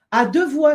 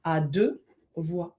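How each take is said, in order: First: Louder, higher À deux voix. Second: Slow, lower À deux voix with a long deux. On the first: Reading a viewer's title, announced loudly. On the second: Rereading the viewer's title, slowly. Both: Real, not acted.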